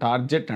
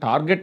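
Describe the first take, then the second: First: The middle consonant is a soft j sound. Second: The middle consonant is a hard g sound. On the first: "కొంతమంది టార్జెట్ అంటారు" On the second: "కొంతమంది టార్గెట్ అంటారు"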